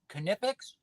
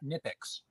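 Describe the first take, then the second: First: The word starts with a sounded K. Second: The word starts with a silent K. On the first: "Are they pronounced Knippix or Nippix?" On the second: "Mute the K"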